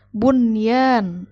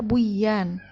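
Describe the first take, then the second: First: The n is clearly pronounced before y. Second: The n merges into the following y. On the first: The speaker calls it right. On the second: The speaker calls it wrong.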